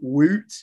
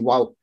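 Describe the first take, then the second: First: The vowel sounds like the one in 'boot'. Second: The vowel sounds like the one in 'out'. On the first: The speaker calls it wrong. "unlike the chant" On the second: The speaker calls it right. "if I'm trying to pronounce it right"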